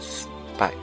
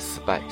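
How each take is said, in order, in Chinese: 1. 这个词有一个短暂的停顿。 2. 这个词读起来没有停顿。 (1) "它中间有一个慢的停顿顿音" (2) "不是spy"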